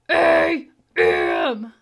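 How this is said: The letters are said in a growly monster voice. "Do it in your monster voice"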